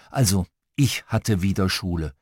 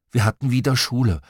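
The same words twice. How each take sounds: First: "ich" picked out as a correction; stress on ICH. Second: Said in the usual way. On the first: A narrator's reading. Narrator corrects who had school, stressing "ich". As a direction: lean on "ich", then let the rest drop lower.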